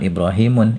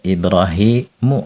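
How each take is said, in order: First: The name ends in a vowel followed by n. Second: The name ends in a plain vowel, without n. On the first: The speaker calls it wrong. "jangan Ibrahimun" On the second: The speaker calls it right. "Nanti bacanya Ibrahimu"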